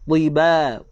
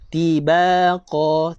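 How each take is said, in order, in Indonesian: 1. Huruf t pertama tebal, lidah terangkat. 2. Huruf t pertama tipis, lidah rata. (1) "sifat tebal ni lidah lidah kita terangkat sedikit" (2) "kalau saya baca dengan ta, bunyi dia macam ni"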